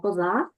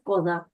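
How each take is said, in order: First: The stress falls where Ukrainian places it. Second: The stress falls where Polish places it. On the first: "ми кажемо коза" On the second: "а тут буде коза. Бачите, так само міняється наголос"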